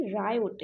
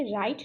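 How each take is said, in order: First: "रायोट" in two syllables, rai-yot; riot with vowel. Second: "राइट" as one syllable, like right; riot missing vowel. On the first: Teacher correcting for students, two-syllable "रायोट". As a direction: add an o vowel before the t in "रायोट". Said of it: "बल्कि ये रायोट है". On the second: Teacher showing the wrong reading, one-syllable "राइट". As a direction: close "राइट" straight from the diphthong to t. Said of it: "ये राइट नहीं है". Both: Shown as a demonstration.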